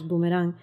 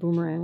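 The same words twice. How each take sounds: First: It is pronounced with Spanish sounds. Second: It is pronounced with English sounds. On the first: "the Spanish pronunciation of boomerang, which is boomerang" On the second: "So Boomerang"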